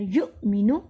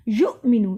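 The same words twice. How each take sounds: First: युमिनु with a sharp catch on the hamza; hamza jolt. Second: युमिनु said without the glottal catch; wrong reading. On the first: Teacher showing the correct hamza to students, with a jolt. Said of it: "हमज़ा पे हम झटका देते हैं". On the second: Teacher demonstrating the mistake to students, flat delivery. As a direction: say युमिनु smoothly, with no jolt on the hamza. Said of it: "युमिनु नहीं पढ़ना". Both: Shown as a demonstration.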